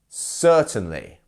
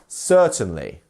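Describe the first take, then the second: No difference in how they are said.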